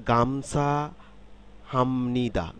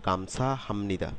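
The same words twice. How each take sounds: First: Slow, careful "গামসা হামনিদা" with m before n; "হামনিদা" with m in place of p, slowly linked; changed sound, p as m. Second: "গামসা হামনিদা" repeated more compactly, m before n; connected "গামসা হামনিদা", settling at the end; changed sound, joined up. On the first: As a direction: stretch "গামসা হামনিদা" as a teaching model. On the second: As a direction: say "গামসা হামনিদা" as one smooth phrase. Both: Shown as a demonstration. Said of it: "এখানে কিন্তু পরিবর্তিত হয়ে".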